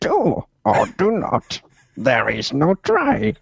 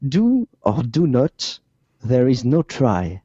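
First: It is said imitating Yoda's voice. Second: It is said in his normal voice.

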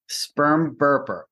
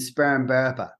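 First: It is said in a neutral accent. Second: It is said in a Boston accent. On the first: "I'm going to say it" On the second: "Now I'm going to say it in the Boston accent"

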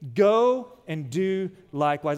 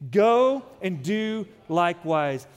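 First: It is said plainly, without extra force. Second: It is said forcefully, with strong conviction.

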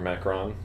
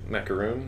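First: The word ends with a short 'on' sound. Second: The word ends with a long 'oon' sound. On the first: "but there's no two O's" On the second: "I've heard it Macaroon"

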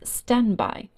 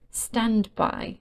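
First: The d sound is dropped. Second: The d sound is pronounced.

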